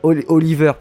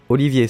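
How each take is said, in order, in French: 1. Le nom se prononce à l'anglaise. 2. Le nom se prononce à la française. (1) "Oliver, pas Olivier" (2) "mon accent anglais à revoir"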